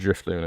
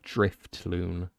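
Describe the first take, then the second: First: The name is said without a T sound. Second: The name is said with a T sound. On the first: The speaker calls it right. "There's no T" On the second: The speaker calls it wrong. "You're putting a T in Drifloon"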